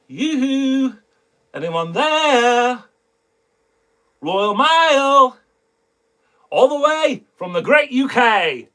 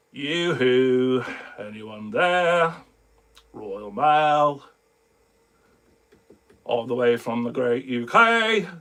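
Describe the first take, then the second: First: High, drawn-out mock UK accent; teaser in UK accent. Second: Low, drawn-out reluctant read; not having it. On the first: Shown as a demonstration. Teasing viewers about upcoming mail, put-on UK accent. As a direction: call it out high and slow in a put-on British accent. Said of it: "that's my little teaser pleaser". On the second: Retold or imitated. Friend coaxed into a tiny soundbite, not having it. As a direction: imitate a friend reading it with no enthusiasm, low. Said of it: "like, not having it".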